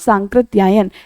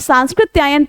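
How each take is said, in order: First: No 's' sound comes before the 'k'. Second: An 's' sound comes before the 'k'. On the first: The speaker calls it right. "ये सांस्कृत्यायन नहीं बल्कि सांकृत्यायन होता है" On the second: The speaker calls it wrong. "कई बार आप ये सांस्कृत्यायन पढ़ते होंगे"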